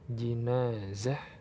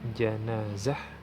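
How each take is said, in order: First: The first vowel is an 'i' sound. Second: The first vowel is an 'a' sound. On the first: It names the bier holding the deceased. "Kalau dibaca dengan kasroh" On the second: It names the deceased lying on the bier. "kalau dibaca dengan fathah"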